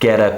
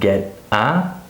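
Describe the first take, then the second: First: The T links into the vowel as a D. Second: The words are separated without linking. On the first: The speaker calls it right. "I say get a piece" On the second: The speaker calls it wrong. "not get a"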